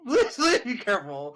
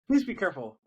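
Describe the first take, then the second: First: Raised, laughing plea of alarm. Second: Said in the usual way. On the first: Real, not acted. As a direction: beg her through a laugh. Pleading after alarming story.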